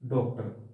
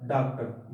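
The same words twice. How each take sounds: First: The first vowel is between 'aa' and 'o'. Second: The first vowel is a plain open 'aa'. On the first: "यदि इस पर ये लगा दिया जाए" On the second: "ये क हलंत के साथ है"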